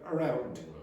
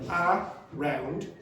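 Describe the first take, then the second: First: The first syllable is short, quiet and reduced. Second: Both syllables are equally long and strong. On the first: The speaker calls it right. "Round is stronger than a. The a part becomes uh, it becomes quieter, it becomes shorter" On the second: The speaker calls it wrong. "The syllable timing means that the syllables take the same amount of time"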